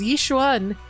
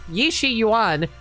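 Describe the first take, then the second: First: The name is squeezed into two syllables. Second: The name is spread over three syllables. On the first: The speaker calls it wrong. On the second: The speaker calls it right.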